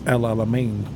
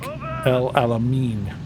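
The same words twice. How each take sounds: First: The final syllable is said like 'ain'. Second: The final syllable is said like 'ein'. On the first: The speaker calls it right. "in reality, it's it's El Alamein, like A I N, not E I N" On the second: The speaker calls it wrong. "in English, we would pronounce that"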